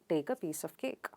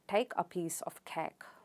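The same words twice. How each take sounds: First: An Indian accent, with no puff of air. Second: A strong South African accent. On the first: "Indians would pronounce it without aspiration" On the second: "with a strong South African accent"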